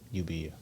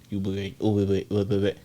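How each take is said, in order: First: The middle syllable sounds like 'be'. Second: The middle syllable sounds like 'by'. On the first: The speaker calls it right. "nah, ... chill" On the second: The speaker calls it wrong. "how they're pronouncing it"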